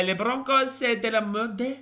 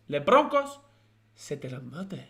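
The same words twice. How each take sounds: First: Mock French accent. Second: Put-on a silly Spanish accent over French words; mock Spanish accent. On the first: Reading a viewer's French dig at the Broncos in a high mock French accent. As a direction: ham up a French insult, pitched high. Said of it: "That's how you say Broncos are shit in f-, French". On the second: Repeating the viewer's French joke in a mock Spanish accent. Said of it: "I'm speaking Spanish now".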